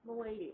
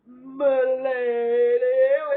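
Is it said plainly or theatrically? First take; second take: plainly; theatrically. First: It is said in a plain, normal voice. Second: It is said in a theatrical, medieval manner.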